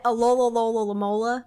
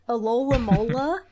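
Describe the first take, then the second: First: The name is stretched with extra repeated syllables. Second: The name is said with its usual syllables. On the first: The speaker calls it wrong. "I just say it for as long as I can" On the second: The speaker calls it right. "I think is the proper way to say it"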